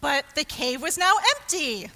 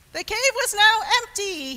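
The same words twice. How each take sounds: First: Mildly surprised, louder storytelling; surprised narration. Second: High, loud burst of surprise; astonished narration. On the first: Storyteller reveals the empty cave, mild surprise. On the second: Storyteller prompting surprised faces from children, astonished. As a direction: repeat the reveal in big astonishment. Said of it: "Let me see some surprised faces". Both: A narrator's reading.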